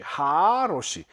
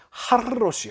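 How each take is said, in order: First: Long held 하 and a single r in 하로시; lengthened vowel. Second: Short 하, then a held trill into 로시 in 하르로시; doubled rolled r. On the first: Teacher showing compensatory lengthening, long 하 in 하로시. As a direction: stretch the 하 slowly in 하로시. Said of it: "보상적으로 장음화된다". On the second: Teacher showing why it is hard, trilled r in 하르로시. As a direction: roll a long doubled r in 하르로시. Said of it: "하르로시가 발음이 안 되니까". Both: Shown as a demonstration.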